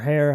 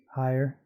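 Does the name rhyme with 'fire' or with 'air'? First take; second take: air; fire. First: The name rhymes with air. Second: The name rhymes with fire. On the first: "Or Hare, however you want to pronounce it" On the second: "I call him Higher"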